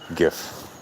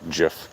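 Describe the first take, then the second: First: It starts with a hard G sound. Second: It starts with a soft G sound. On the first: The speaker calls it right. "So the G is a hard G" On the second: The speaker calls it wrong. "no, it's not GIF"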